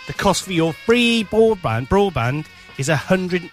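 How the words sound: It is read out slowly in a patronising tone.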